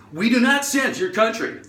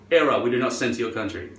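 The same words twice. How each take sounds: First: High, exaggerated mocking repeat; mocking error message. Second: Low, quick automated notice; website error message. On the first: Website taunting the foreign shopper, high mocking voice. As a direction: parrot it back in a high voice. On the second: Retold or imitated. Website refusing the shopper, low quick error voice. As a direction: read it out like a curt error. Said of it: "And it says".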